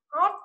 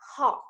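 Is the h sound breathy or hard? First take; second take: hard; breathy. First: The h is said without a puff of breath. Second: The h is said with a puff of breath. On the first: The speaker calls it wrong. "Hot là không có hơi đúng không?" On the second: The speaker calls it right. "Thế bây giờ mình ra hơi này"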